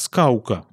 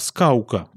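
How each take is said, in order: First: A W-like glide comes before the K. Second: A W-like glide comes before the K.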